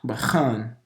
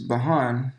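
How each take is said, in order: First: The middle consonant is a throaty ch. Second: The middle consonant is a plain breathy h. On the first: The speaker calls it right. "that's Cha right there" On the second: The speaker calls it wrong. "not Bahan"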